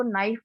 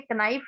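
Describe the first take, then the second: First: नाइफ with a silent k; correct pronunciation knife. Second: कनाइफ with the k sounded; कनाइफ, k pronounced; wrong pronunciation knife. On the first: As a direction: say नाइफ, start on n. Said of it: "इसको नाइफ बोलते हैं". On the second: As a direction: say कनाइफ, k before n. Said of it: "कनाइफ नहीं पढ़ते". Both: Shown as a demonstration.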